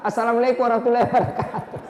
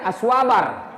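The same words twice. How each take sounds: First: Assalamualaikum warahmatullahi wabarakatuh rattled off fast and slurred with a laugh; rushed salam. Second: Aswabar swallowed into one quick mumble; garbled salam. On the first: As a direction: gabble the salam through a chuckle. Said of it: "Apalagi itu aswabar". (salam diucapkan cepat sambil tertawa) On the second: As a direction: squash the whole salam into one word. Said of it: "lebih parah, dia bilang saja". (salam disingkat jadi Aswabar) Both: Retold or imitated.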